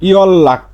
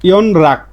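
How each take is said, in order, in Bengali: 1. মাঝেরটি দ্বিত্ব ল হিসেবে উচ্চারিত হয়। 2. মাঝেরটি ন, তারপর র হিসেবে উচ্চারিত হয়। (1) "ইয়ন রাক না হয়ে কি হবে ইয়ল লাক" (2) "এর স্বাভাবিক উচ্চারণ"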